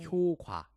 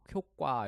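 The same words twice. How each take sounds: First: The second syllable starts with a plain consonant. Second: The second syllable starts with a tense consonant. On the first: This was the old standard pronunciation. "당시에는 ... 이렇게 읽어야 되는데" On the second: This is how people actually say it. "이렇게 강세가 되잖아요"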